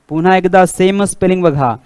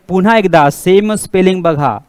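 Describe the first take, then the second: The two takes are said the same way.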